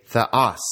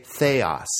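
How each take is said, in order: First: THEOS as "theh-OS", short e, stress on OS; accent on second syllable. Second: THEOS with a long AY, "THAY-os"; wrong pronunciation. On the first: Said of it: "The accent is on the second syllable". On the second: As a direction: say theos as THAY-os, stressing the first syllable. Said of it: "please don't say theos". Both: Shown as a demonstration.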